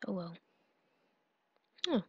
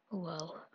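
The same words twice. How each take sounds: First: Whisper. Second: Said in the usual way. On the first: Real, not acted. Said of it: "Oh well (first take)". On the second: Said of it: "Oh well (whispered retake)".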